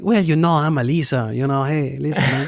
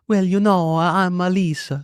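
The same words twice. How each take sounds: First: Higher mock Mexican accent; Italian accent slipping into Mexican. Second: Higher, drawn-out mock Italian accent; slow, lilting put-on Italian. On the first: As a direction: imitate your wife with a put-on Mexican lilt. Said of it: "became a little more Mexican". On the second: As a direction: imitate your wife attempting an Italian accent. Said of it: "put on this Italian accent".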